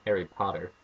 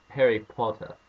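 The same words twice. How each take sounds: First: "Potter" said American, with the final R sounded; American pronunciation. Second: "Potter" said British, with no final R; British pronunciation. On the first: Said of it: "You can't say Harry Potter". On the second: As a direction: drop the R at the end of "Potter". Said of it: "you have to say it Harry Potter". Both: Shown as a demonstration.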